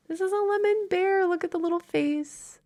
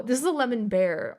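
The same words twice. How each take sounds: First: Put-on much higher, sweet baby talk to a plush toy; high cooing voice for a cute plush; cutesy baby voice. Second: Said in the usual way. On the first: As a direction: coo it like showing off a tiny toy.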